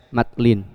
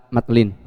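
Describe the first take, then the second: Both takes have the same delivery.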